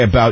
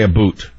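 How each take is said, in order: First: The word has the usual American 'ow' vowel. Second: The word has a Canadian-style 'oo' vowel. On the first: "We say about" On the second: "you say aboot"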